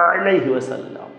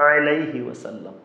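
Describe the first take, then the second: The two takes are said the same way.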